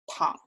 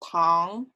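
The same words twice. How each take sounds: First: The pitch stays very low. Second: The pitch rises from middle to high. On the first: It means to lie down. "For to lie down" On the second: It means sugar. "For sugar"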